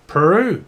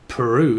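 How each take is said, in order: First: Put-on louder, swooping Australian accent; hammed-up Australian drawl. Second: Said in the usual way. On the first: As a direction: say it like an Aussie, pitched up. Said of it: "Someone's from Australia".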